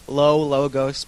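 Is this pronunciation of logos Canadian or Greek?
Canadian. It is said with a Canadian accent. "You Canadians say it"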